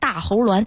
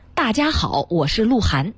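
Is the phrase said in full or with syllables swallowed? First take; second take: swallowed; full. First: Most syllables are swallowed into three quick sounds. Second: Every syllable is pronounced clearly and in full.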